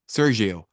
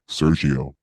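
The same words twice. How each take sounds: First: The name is said in a higher voice. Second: The name is said in a much lower voice.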